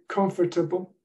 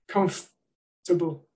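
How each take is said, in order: First: The word is said with four syllables. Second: The word is said with three syllables. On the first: "with the syllable" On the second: "most speakers cut that syllable out"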